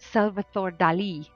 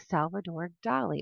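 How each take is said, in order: First: The name is said in a native-style way. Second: The name is said in an anglicized way. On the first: The speaker calls it right. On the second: The speaker calls it wrong.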